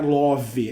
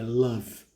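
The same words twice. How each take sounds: First: An extra vowel is sounded after the final v. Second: The word ends on the v with no vowel. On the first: The speaker calls it wrong. "não é love" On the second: The speaker calls it right. "esse E final, love, ele não é pronunciado"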